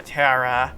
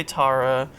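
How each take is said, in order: First: "Tara" rhyming with Sarah, TAIR-a; variant pronunciation. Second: "Tara" with an open "ah", TAH-ra; variant pronunciation. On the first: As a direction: say "Tara" with an "air" vowel. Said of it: "some people say Tar". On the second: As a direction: say "Tara" with the vowel of "father". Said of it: "some people say Tara". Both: Shown as a demonstration.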